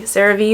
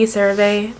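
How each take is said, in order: First: "CeraVe" ending in a "vee" sound; last syllable of "CeraVe" rhymes with "see"; alternative pronunciation. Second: "CeraVe" ending in a "vay" sound; last syllable of "CeraVe" rhymes with "day"; alternative pronunciation. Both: Shown as a demonstration. Trying both ways of saying brand.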